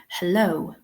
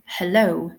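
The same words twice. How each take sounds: First: Said in the usual way. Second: Hello with the LO punched louder; heLLO, second syllable stressed. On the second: Shown as a demonstration. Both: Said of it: "Very strong emphasis on the second syllable".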